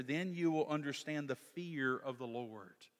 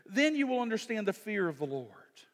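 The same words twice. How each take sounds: First: Quiet reading. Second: "then you will understand" read out strong and ringing; forceful reading. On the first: Preacher rereading the verse softly to the congregation. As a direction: let it settle, hushed. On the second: Preacher proclaiming the verse, strong. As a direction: proclaim it to the room. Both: Acted.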